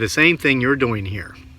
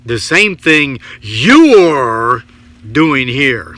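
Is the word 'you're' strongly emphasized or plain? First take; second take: plain; emphasized. First: The word 'you're' is said plainly. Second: The word 'you're' is strongly emphasized.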